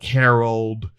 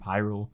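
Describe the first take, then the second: First: The first syllable sounds like 'ha'. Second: The first syllable sounds like 'high'. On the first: "mistakenly um, pronounce it as like Harold" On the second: "the city of Hyrule"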